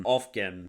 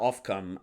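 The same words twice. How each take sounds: First: "off cam" with "cam" reduced to "kim"; unsure pronunciation. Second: "off cam" with "cam" said as "kum"; alternative pronunciation. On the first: Commentator unsure of a source's name, "off cam" as "off-kim". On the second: Commentator trying another way to say it, "off cam" as "off-kum". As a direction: say "cam" in "off cam" like "come". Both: Shown as a demonstration. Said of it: "I don't know how you say".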